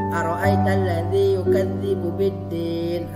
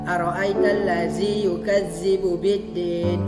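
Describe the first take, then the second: First: The dhal is pronounced as a soft 'dh' sound. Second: The dhal is pronounced as a buzzing 'z' sound. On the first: The speaker calls it right. "Ustadz bacakan sekali ayat pertama" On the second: The speaker calls it wrong. "jangan antum baca seperti ini"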